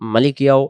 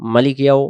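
The two takes are said the same way.

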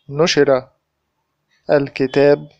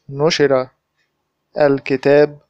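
The two takes are said the same way.

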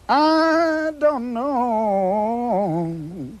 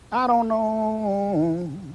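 First: It is said with strong emphasis. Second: It is said plainly, without emphasis.

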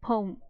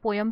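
First: The word is said with one syllable. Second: The word is said with two syllables. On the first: The speaker calls it right. "But हम इसको पोम बोलते हैं" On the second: The speaker calls it wrong. "जो बड़ा common सा pronunciation है"

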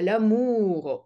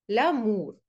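First: The 'ou' vowel is pushed deep toward the throat. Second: The 'ou' vowel sounds like an ordinary Russian u. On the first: The speaker calls it right. "даже глубже, чем у русское" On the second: The speaker calls it wrong. "Если бы по-русски, это было бы мур, лямур. Нет"

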